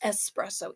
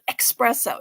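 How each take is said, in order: First: The first syllable sounds like 'ess'. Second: The first syllable sounds like 'ex'. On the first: The speaker calls it right. "No, it's espresso" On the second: The speaker calls it wrong. "all that caffeine must make you really fast. That's why they call it espresso"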